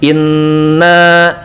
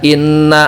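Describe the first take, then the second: First: The nasal n sound is held long. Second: The nasal n sound is cut short. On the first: The speaker calls it right. "itu kan harusnya ada gunnah" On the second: The speaker calls it wrong. "misalkan tanpa gunnah"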